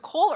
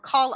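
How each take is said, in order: First: The vowel sounds like the one in 'coal'. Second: The vowel sounds like the one in 'call'. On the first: "is the word call or coal" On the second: "is the word call or coal"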